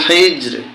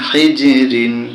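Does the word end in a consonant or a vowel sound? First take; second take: consonant; vowel. First: The word ends cut off on the consonant. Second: The word ends with an added -in syllable.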